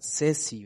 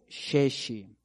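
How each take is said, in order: First: The word begins with a plain s sound. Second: The word begins with an sh sound. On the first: The speaker calls it wrong. "mal pronunciado sería sesi" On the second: The speaker calls it right. "aquí está shesh o sheshi"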